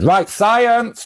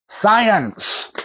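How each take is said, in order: First: Excited announcement. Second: High drawn-out science, falling; mock grand announcement. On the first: Acted. Comic shop owner launching the experiment, mock grand. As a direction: proclaim it like a game show host. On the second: Comic shop owner kicking off the experiment, hammed up. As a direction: sing out the word like a showman.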